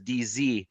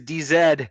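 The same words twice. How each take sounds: First: The final letter is said as American "zee." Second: The final letter is said as British "zed." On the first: "those of you who are south of the border, where I am here in Canada, that is" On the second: "I do sport the Queen's English, um, which means that your your name is"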